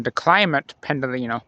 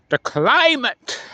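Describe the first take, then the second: First: Said in the usual way. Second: "climate" drawn out slow and high, sing-song; his special way. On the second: Shown as a demonstration. Vlogger doing his signature call of the train, "climate" slow and high. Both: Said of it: "like I like to say it".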